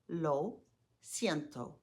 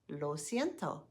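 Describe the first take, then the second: First: It is said slowly. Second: It is said fast.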